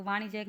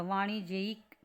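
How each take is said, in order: First: वाणिज्यक ending in -jek, no separate i; wrong ending -jek. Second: वाणिज्यिक with an audible i before k; correct ending -je-ik. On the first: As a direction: close वाणिज्यक on a single -jek syllable. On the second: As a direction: split the end of वाणिज्यिक into je-ik. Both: Shown as a demonstration. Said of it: "वाणिज्यक नहीं होता".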